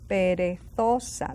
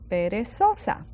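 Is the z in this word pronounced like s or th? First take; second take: th; s. First: The z is pronounced like th. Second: The z is pronounced like an s.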